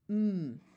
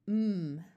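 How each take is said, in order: First: The m sound is held with nothing after. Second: The m sound is held with nothing after.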